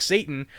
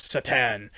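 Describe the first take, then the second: First: Satan like the devil, stressed SAY-tun; English reading as spelled. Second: Satan as sha-TAN, stress on the end; corrected name pronunciation. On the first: Hockey fan misreading a jersey, Satan as SAY-tun. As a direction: say Satan with stress on the first syllable. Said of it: "you think Satan". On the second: Fan correcting a jersey misreading, Satan stressed on the last syllable. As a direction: say Satan slowly, landing on the second syllable. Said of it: "no, it's Satan". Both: Shown as a demonstration.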